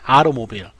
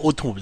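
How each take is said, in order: First: The middle t is a quick flap like 'r'. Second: The middle t is a clear, full t sound.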